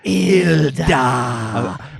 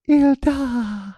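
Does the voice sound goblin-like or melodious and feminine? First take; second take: goblin-like; melodious. First: It is said in a rough, goblin-like voice. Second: It is said in a melodious, feminine voice. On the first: The speaker calls it wrong. "you're saying it in a weird. ... like a goblin" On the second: The speaker calls it right. "Give me an example of melodious. ... that's not bad"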